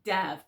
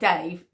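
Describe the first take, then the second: First: The vowel is a short 'a' sound. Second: The vowel is a long 'ay' sound. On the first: The speaker calls it right. "Dav, D A V" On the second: The speaker calls it wrong. "Not Dave"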